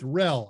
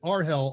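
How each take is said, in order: First: It is said as one short word. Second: It is said as separate spelled-out letters. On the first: "you're changing my pronunciations of things with rel" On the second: "I have called it Arhel all my life"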